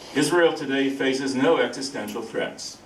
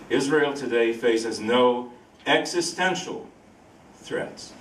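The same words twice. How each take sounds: First: It is said in his normal speaking voice. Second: It is said in a radio-announcer voice.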